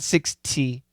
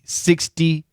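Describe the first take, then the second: First: The middle consonant is a crisp, clear T. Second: The middle consonant sounds like a soft D. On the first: "not six T" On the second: "it was a D"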